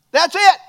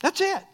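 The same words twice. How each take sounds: First: Loud and higher, hammered home; emphatic declaration. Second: Said in the usual way. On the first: Acted. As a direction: slam the point shut, loud.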